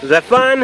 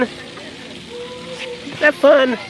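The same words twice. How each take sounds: First: Said in the usual way. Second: Very slow, stretched question. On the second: Real, not acted. Slow drawn repeat to baby.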